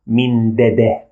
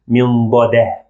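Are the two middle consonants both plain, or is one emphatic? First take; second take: both plain; one emphatic. First: Both adjacent consonants are plain and soft. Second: One of the adjacent consonants is emphatic. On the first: The speaker calls it wrong. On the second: The speaker calls it right.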